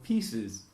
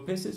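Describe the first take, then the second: First: The first vowel is a long 'ee' sound. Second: The first vowel is a short 'i' sound. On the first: The speaker calls it right. "you talk about your pieces" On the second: The speaker calls it wrong. "You don't talk about your pieces"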